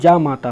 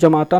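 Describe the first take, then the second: First: The first vowel is long. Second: The first vowel is short. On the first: The speaker calls it right. "ये जा पर एक बड़े या का मात्रा रहता है" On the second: The speaker calls it wrong. "जमाता नहीं होता है"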